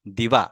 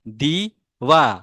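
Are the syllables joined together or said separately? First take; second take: joined; separate. First: The syllables are blended into one smooth word. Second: Each syllable is said separately with pauses.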